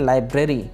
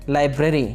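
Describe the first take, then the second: No difference in how they are said.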